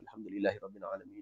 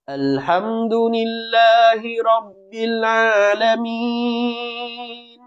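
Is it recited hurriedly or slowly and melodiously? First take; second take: hurriedly; slowly. First: It is recited hurriedly without a tune. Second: It is recited slowly with a melodious tune.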